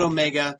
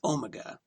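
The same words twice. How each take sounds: First: It is said with a non-British pronunciation. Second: It is said with a British pronunciation. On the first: The speaker calls it wrong. "it's not" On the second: The speaker calls it right. "That's how they pronounce it over there"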